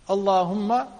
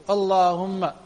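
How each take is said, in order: No difference in how they are said.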